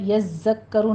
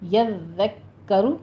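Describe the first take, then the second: First: The doubled consonant is pronounced as a z sound. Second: The doubled consonant is pronounced as a d sound. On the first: The speaker calls it wrong. "यज़्ज़क्करु नहीं पढ़ना, ज़य की आवाज़ नहीं आनी चाहिए" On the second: The speaker calls it right. "नरमी से अदा कीजिए और तशदीद आपने अदा करनी है"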